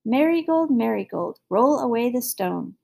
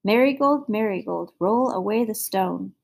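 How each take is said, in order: First: Calling out. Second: Tiger growl. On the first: Acted. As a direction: call from outside the door. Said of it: "till you hear me calling". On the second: A narrator's reading. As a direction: call it as a weary tiger. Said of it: "heard the tiger growl".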